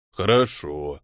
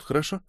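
First: Slow, drawn-out low okay. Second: Said in the usual way. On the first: Acted. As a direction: stretch the word lazily, low. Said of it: "протянул тот". (протяжно, низким голосом) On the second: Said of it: "Да, дядя До, подожди нас тут".

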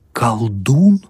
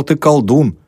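First: Колдун with a rising questioning tune; incredulous question. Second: Колдун as a high, falling statement. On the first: Dal taken aback at being called one, Колдун questioned. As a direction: echo Колдун higher, lifting the end in disbelief. Student echoes it in disbelief. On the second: Sister telling Dal what Savely said, колдун stated. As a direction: state колдун firmly, letting the tune fall. Statement later echoed as question. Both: A narrator's reading.

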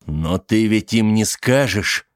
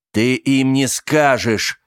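First: Slow desperate plea. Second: Firm slow insistence. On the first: Charlie pleads, gripping her wrists. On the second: Charlie insists more firmly. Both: Acted.

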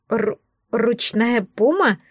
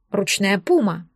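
First: Slow, halting stutter on the first syllable; stammering question. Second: Said in the usual way. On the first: A narrator's reading. Girl shocked that a puma is tame, stammering. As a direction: trip on the first word, then ask in disbelief. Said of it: "заикаясь, спросила я".

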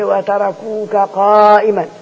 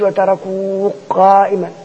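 First: Slow recited وتركوك قائما with the كاف and قاف both clear; no merging. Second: Slow recited وتركوك قائما with the كاف merged into the قاف; incorrectly merged recitation; wrong merged take. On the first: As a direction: recite وتركوك قائما slowly, each letter sounded. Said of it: "عايزين حركة". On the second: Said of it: "ما نقولش". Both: Shown as a demonstration.

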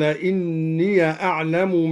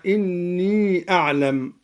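First: "إني" said "inniya", short a on the ya, no long hold; fatha on the ya. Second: Said in the usual way. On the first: Shown as a demonstration. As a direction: open the end of "إني" into "ya" before "أعلم". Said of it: "بفتح الياء". (فتح ياء "إني")

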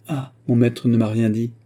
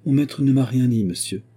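First: Reprendre « mon maître ne m'a rien dit » avec ironie, en appuyant sur « mon »; répétition moqueuse. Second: Voix un peu plus aiguë de jeune servante; servante intimidée. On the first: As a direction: singer la servante d'un ton railleur. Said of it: "Votre moralité et votre connaissance de la grammaire". (le détective répète la phrase de Betty pour s'en moquer) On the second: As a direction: nier timidement, à mi-voix. Betty nie, intimidée. (servante qui se défend devant le détective, voix timide) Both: A narrator's reading.

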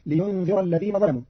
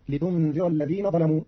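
First: Said in the usual way. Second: لتنذر said litundhira, ta instead of ya; لتنذر with ta, Qalun reading; ta of address. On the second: Shown as a demonstration. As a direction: start لتنذر with a t sound. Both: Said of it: "قرأ قالون كلمة لينذر بتاء الخطاب".

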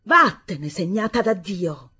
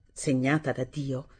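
First: Loud, spiteful insult; cruel shout. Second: Said in the usual way. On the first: A narrator's reading. Stepmother hurling a cruel insult at lame Assunta. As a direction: spit the slur at her. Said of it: "e aggiunse". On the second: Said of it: "Questa frase".

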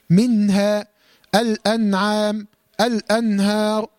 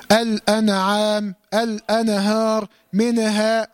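First: منها، الأنعام، الأنهار with nun closed, no vowel after it; correct still nun. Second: الأنعام، الأنهار، منها with "na" or "ne" after each nun; wrongly voweled nun. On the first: Teacher models correct reading, closed nun in منها. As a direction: slowly say "min-ha, al-an-am, al-an-har" for منها، الأنعام، الأنهار. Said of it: "هكذا". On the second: Teacher gives more mistake examples, extra vowel after nun in منها. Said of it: "كل هذه نونات ساكنة". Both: Shown as a demonstration.

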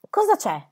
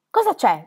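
First: High, anxious cry of fear; trembling anguish. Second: Louder, pleading fearful repeat; trembling anguish. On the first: Squire begs for bad news, trembling high cry. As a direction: blurt it out, frightened. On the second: Squire insisting on the news, louder trembling plea. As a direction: press again, shaking. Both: A narrator's reading. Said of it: "disse lo squire tremando per l'angoscia".

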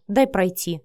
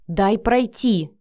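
First: Said in the usual way. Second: Slow, drawn-out, emphatic demand; urgent demand. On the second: A narrator's reading. Vika rushing for the door past Matvey, demanding. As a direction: push past him with each word. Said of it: "Вика ринулась к двери".

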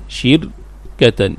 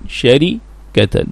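First: شركة as shir... katan, slow and soft; vowel moved to shin. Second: شركة as shari... katan, slow and soft; original vowel on ra. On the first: Teacher showing the vowel shift, شركة said slowly as shir-katan. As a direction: say شركة split slowly, i after shin, still r. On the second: Teacher showing the unshifted form, شركة said slowly as shari-katan. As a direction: say شركة split slowly, a after shin, i under ra. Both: Shown as a demonstration. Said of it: "تنقل حركة الراء إلى الشين".

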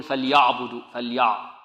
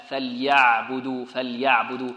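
First: فليعبدوا with a thickened, heavy ع; wrongly heavy ع. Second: فليعبدوا with a thin, gentle ع, drawn out slowly; light, softened ع. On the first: Teacher mimicking students' mistake, فليعبدوا with a heavy ع. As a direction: make the ع in فليعبدوا dark and emphatic. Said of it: "بعض الطلاب ربما يفخمها". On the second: Teacher correcting students, فليعبدوا slowly with a delicate ع. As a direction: keep the ع in فليعبدوا light, not heavy. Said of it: "لابد من تلطيفها". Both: Shown as a demonstration.

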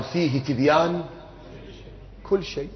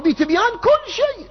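First: Said in the usual way. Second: Rising emphasis landing on "كل شيء"; stress on كل شيء. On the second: Acted. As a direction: climb high on "كل شيء". Verse repeated as sweeping claim.

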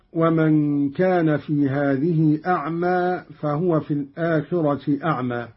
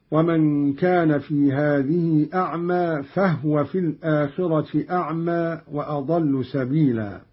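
First: Said in the usual way. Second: "فهو" as fahwa, no vowel on ha; silent ha. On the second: Shown as a demonstration. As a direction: recite "فهو" with the ه vowelless: fah-wa. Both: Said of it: "بإسكان الهاء هكذا".

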